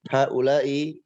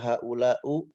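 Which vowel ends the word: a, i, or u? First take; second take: i; u. First: The word ends in an i vowel. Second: The word ends in a u vowel. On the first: The speaker calls it right. "haula'i itu dibaca kasrah" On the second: The speaker calls it wrong. "Tidak boleh dibaca haula'u"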